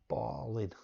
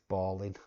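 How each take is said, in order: Both takes have the same delivery.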